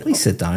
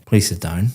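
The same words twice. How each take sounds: First: "Please sit down" with the pitch going up; rising intonation. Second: "Please sit down" kept flat, going down at the end; flat falling intonation. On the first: Examiner showing a student a welcoming invitation, intonation going up. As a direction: lift the tune so the invitation sounds friendlier. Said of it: "my intonation is going up". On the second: Examiner showing a student a curt invitation, flat and falling. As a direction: let "down" drop with no lift, sounding a bit rude. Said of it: "very flat intonation going down". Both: Shown as a demonstration.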